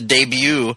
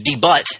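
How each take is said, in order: First: The word is said in a standard pronunciation. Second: The word is said in a regional pronunciation.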